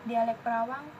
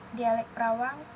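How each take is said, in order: The two takes are said the same way.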